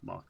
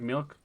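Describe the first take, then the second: First: The vowel sounds like 'ah', as in 'malk'. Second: The vowel sounds like 'ih', as in 'milk'. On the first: "so many people pronounce it Malk. It's awful" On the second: "Do I pronounce it weird?"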